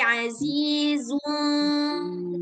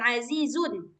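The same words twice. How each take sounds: First: The final n is hidden and nasalized. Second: The final n is pronounced clearly. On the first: The speaker calls it right. "nunnya nggak nggak jelas" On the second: The speaker calls it wrong. "bukan azizun"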